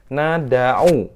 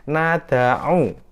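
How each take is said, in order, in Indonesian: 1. Huruf d membawa vokal terbuka yang penuh. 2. Huruf d membawa vokal terbuka yang penuh.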